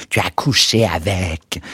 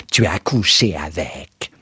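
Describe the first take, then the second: First: Understated scream. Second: Understated yell. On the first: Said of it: "Elle hurla". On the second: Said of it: "vociféra encore une fois". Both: A narrator's reading.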